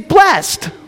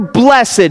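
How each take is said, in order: First: It is said the plain everyday way. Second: It is said the formal churchy way.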